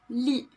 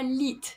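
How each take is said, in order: First: The final T is silent. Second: The final T is pronounced. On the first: The speaker calls it right. "il ne faut pas le prononcer" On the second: The speaker calls it wrong. "Ce n'est pas lit"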